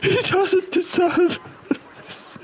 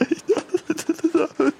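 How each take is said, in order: First: Falsetto sobbing mother. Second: High voice cracking into laughter; laughing through falsetto. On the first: Repeat of mother's line. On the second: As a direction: lose it mid-line laughing. Breaks into laughter mid-line. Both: Acted.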